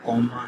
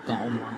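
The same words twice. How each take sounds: First: कॉमा said with a rounded first vowel, like "qau-maa"; corrected pronunciation. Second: कॉमा said with an open "aa" first vowel, like "kaamaa"; mispronounced word. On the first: Quiz reader correcting own word for standing in namaz, re-pronounced. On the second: Quiz reader fumbling the term for standing in namaz, mispronounced. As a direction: say कॉमा uncertainly as "kaa-maa". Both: Real, not acted. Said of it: "मेरी pronunciation word की बिल्कुल गलत है".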